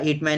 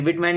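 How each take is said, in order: First: The name begins with an h sound. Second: The name begins with a w sound. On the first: "मैं हिटमैन ही बोलता हूँ" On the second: "कोई कोई विटमैन भी बोलता है"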